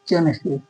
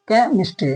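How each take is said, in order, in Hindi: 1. यह ch ध्वनि से शुरू होता है। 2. यह k ध्वनि से शुरू होता है। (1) "नहीं केमिस्ट्री, गलत हो जाएगा" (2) "तो यहाँ पे एच साइलेंट है"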